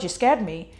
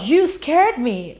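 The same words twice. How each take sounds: First: Said in the usual way. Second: "you scared me" called out high and loud, each word slowed and stretched; relieved loud scolding. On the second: Retold or imitated. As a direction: let the fright burst out as you shout it slowly. Leah finds Gabe alive after panic.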